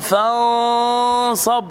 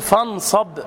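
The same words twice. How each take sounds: First: The nasal sound is stretched far too long. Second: The n is pronounced fully and clearly. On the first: "ولا تبالغ في الغنة مثلا، فلا تقل فانصب" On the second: "لا تقل فانصب، فن خلاص"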